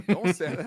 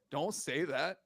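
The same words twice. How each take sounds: First: Louder, higher insistent repeat; exasperated plea. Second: Said in the usual way. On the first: Real, not acted. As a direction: beg him to stop talking.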